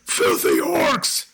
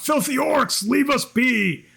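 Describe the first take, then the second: First: Slow gruff voice from behind a door; deep voice. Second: High, slow call from inside. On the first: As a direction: growl it slowly like a hostile stranger. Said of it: "a deep voice go". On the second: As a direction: shout it out through the door. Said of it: "one voice just call out". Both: Acted.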